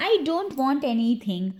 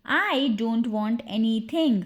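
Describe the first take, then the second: First: Said in the usual way. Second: Slow, stretched teaching take; deliberate language-drill repetition; slow repeat. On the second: Shown as a demonstration. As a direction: say it slowly so learners can follow. Drill, slower repeat for learners.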